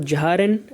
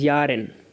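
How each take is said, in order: First: The word starts with a 'j' sound. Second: The word starts with a 'y' sound. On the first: The speaker calls it wrong. "that is not jaren" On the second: The speaker calls it right. "that is yaren"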